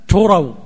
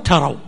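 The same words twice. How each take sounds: First: The first syllable has a 'u' vowel. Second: The first syllable has an 'a' vowel. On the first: You come to think that you have repaid it. "بضم التاء" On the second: You come to know that you have repaid it. "وفتحها"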